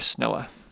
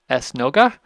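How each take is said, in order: First: The word is said without a G sound. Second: The word is said with a G sound. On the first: This is the affectionate local form of the word. "in the local pronunciation of Papiamento, the G drops out" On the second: This is the Portuguese form of the word. "the Portuguese word for synagogue is esnoga"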